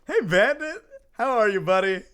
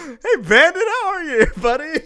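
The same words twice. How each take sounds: First: Higher, louder welcome; excited greeting. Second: Very high, loud and breaking into laughter; overdone nervous greeting. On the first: Real, not acted. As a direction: greet a buddy brightly and loudly. Streamer greets Bandit on arrival. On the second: Acted. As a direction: cover being caught with a loud, laughing hello. Caught out, greets Bandit again.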